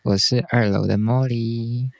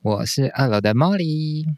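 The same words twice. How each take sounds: First: It is said flatly, without much energy. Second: It is said in a livelier, more energetic way.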